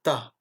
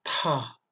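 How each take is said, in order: First: "ta" with a plain French T, no puff; D of pinyin as unaspirated "ta". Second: "Ta" with a strong puff after the T; heavily aspirated "Ta". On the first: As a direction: say "ta" with a tight, airless T. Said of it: "se prononce comme un T". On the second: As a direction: push air out on the T of "Ta". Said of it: "mais expiré". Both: Shown as a demonstration.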